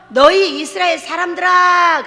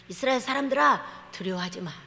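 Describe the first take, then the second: First: Slow, loud, solemn call to the people; booming proclamation. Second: Quiet, tender reassurance, fading softer; soft and gentle. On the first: Preacher booming a prophet's call to Israel, slow and loud. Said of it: "제가 변해서". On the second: Preacher voicing God gently calming Israel, soft. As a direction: hush them like a comforting father. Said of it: "그럴 때는". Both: Acted.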